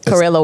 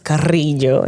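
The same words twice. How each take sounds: First: The R is plain, not rolled. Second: The R is rolled in the name. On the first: "Carrillo will do" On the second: "you have to roll the R's and then the L, and it becomes Carrillo"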